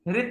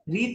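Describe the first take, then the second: First: The vowel is said short. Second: The vowel is said long. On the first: The speaker calls it right. "रित है ना" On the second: The speaker calls it wrong. "रीत नहीं है"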